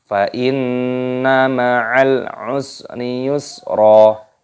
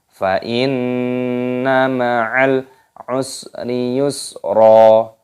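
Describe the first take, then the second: Both takes have the same delivery.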